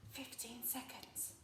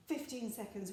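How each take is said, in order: First: Very soft, secretive whisper. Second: Said in the usual way. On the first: Shown as a demonstration. Teacher modelling the shortest time, whispering. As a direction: barely breathe the words. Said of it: "So can you whisper those times". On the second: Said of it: "Can you whisper it to me this time?".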